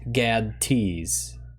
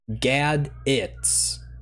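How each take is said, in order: First: No vowel is heard between the D and T. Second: A vowel is heard between the D and T. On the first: "not gad-ts" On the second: "this is pronounced gad-its"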